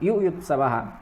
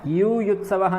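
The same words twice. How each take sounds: First: The first vowel is kept short. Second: The first vowel is drawn out long. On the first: The speaker calls it right. "छोटा वाला यू है" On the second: The speaker calls it wrong. "युयुत्सवः नहीं है, बहुत सारे लोग युयुत्सवः भी कर देते हैं, यू नहीं है वो"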